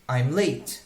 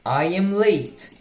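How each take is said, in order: First: I and am merge into one short syllable. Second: Two separate words are said, I and am.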